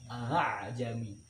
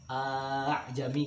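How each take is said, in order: First: The second hamza is softened toward an alif. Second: The opening vowel is drawn out long. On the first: The speaker calls it right. "seharusnya pada ayat ini dibaca dengan tashil" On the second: The speaker calls it wrong. "membacanya dengan panjang ... itu juga sebuah kesalahan"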